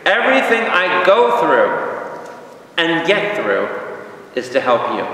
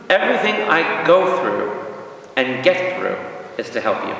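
First: High, slow, ringing scripture quote, settling at the end; emphatic verse proclamation. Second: Repeated verse. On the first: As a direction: proclaim it to the congregation. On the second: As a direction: restate it, easing down to the end. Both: Shown as a demonstration. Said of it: "Push the repeat button".

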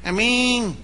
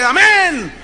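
First: Said in the usual way. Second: High, loud congregational shout; louder amen. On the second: Retold or imitated. Congregation obeying the pastor, louder shout. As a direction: imitate a roused church answering. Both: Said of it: "Más fuerte".

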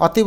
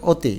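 First: অতি with an open 'aw'; wrong pronunciation. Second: অতি with a closed 'o'; correct pronunciation. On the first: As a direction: say অতি as written, "aw-ti". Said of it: "অতি বলি না". (অতি, খোলা অ উচ্চারণে) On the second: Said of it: "আমরা বলি অতি". (অতি, অ-কে ও-এর মতো করে) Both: Shown as a demonstration.

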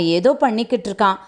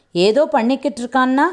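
First: Said in the usual way. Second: "ஏதோ பண்ணிக்கிட்டு இருக்கான்னா" echoed back higher, as a query; questioning echo. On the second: Acted. Samson queries Durairaj's vague report, "ஏதோ" raised in a questioning echo. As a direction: lift "ஏதோ" high, querying the phrase.

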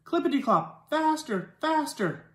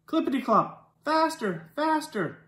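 Both takes have the same delivery.

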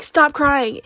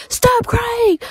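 First: Said in the usual way. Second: High mock shout of a stern dad; hammed-up high dad yell. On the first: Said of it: "he'd be like". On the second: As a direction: imitate dad yelling at a crying kid, pitched up. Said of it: "And my dad was like".

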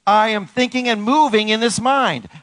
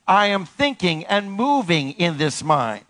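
First: High, forceful declaration; raised preaching call; rallying affirmation. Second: Measured, drawn-out declaration; slow it so all can join in; steady, spaced-out call-and-response; slow repeated affirmation. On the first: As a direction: proclaim it for all to repeat. Leading congregation in loud affirmations. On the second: Slower repeat with congregation. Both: Shown as a demonstration.

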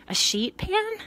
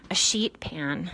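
First: "pan" rising high in a question; doubtful lift on "pan", loud and high. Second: Said in the usual way. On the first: Real, not acted. Woman doubting a cover idea, "pan" rising as a question.

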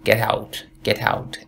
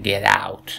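First: "get out" with "out" as "eut"; Canadian "get out". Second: "get out" with open "aut" vowel; slow "get out", "out" starting on ah; American "get out". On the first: Teacher showing what Canadians do say, eh-vowel "get out". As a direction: start the vowel of "out" on eh, not ah. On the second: Teacher showing what Canadians don't say, open-vowel "get out". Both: Shown as a demonstration.

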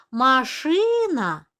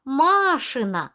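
First: «машина» slowly, with a long stressed И; наголос на другий склад. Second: «машина» slowly, with a long stressed first А; наголос на перший склад. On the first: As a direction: lean hard on ШИ in «машина». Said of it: "наголос падає на другий склад". («машина» з наголосом на другий склад) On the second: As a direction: lean hard on MA in «машина». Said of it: "наголос падає на перший склад". («машина» з наголосом на перший склад) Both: Shown as a demonstration.

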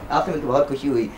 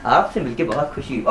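Both takes have the same delivery.

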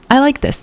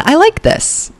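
First: Said in the usual way. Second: High, delighted I like this; light up at the look. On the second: Real, not acted. Delighted at outfit.

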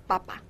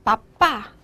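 First: "爸爸" as Spanish papa, stress on the first syllable; 不加重音符号. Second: "爸爸" as Spanish papá, stress on the last syllable; 加上重音符号. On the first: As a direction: let the second syllable of "爸爸" fall away. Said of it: "如果你要不加重音符号". ("爸爸"重音在前，读成papa) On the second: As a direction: punch the second syllable of "爸爸". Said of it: "加上一个重音符号". ("爸爸"重音在后，读成papá) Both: Shown as a demonstration.

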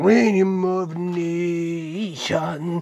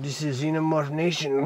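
First: Very slow, stretched-out showman's call; drawn-out announcement. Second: Said in the usual way. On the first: Pretend. Host announcing Xenomorph Nation to viewers, drawn-out call. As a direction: stretch "Xenomorph Nation" out long, each vowel held.

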